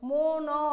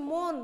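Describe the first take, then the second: First: "মন" broken into mo-naw, louder; added final vowel. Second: "মন" as one syllable, mon; closed final consonant. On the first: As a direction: stretch "মন" so it ends on an open অ. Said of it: "যদি হসন্তটা না দেই". ("মন" হসন্ত ছাড়া, জোরে: মো-নঅ) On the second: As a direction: end "মন" on the n, with no vowel after it. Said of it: "নিচে একটা হসন্ত দিব". ("মন" হসন্ত দিয়ে এক অক্ষরে: মোন্) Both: Shown as a demonstration.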